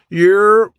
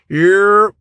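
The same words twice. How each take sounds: First: It sounds like a brief, knowing acknowledgment. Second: It sounds like an urgent call to gather.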